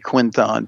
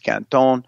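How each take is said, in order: First: The name is said with an English pronunciation. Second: The name is said with a French pronunciation. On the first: "but people say Quinton" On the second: "The real French pronunciation is Canton"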